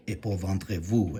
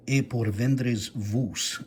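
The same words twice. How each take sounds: First: "Et pour vendre vous" as modern French; modern French pronunciation. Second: "E por vendres vos" sounded out slowly; old French pronunciation. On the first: Scholar giving modern equivalent, "Et pour vendre vous" in tentative French. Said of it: "would correspond to the modern French". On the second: Scholar decoding Rashi's Hebrew letters, "E por vendres vos" in slow old French. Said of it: "transliterates it into Hebrew characters". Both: Shown as a demonstration.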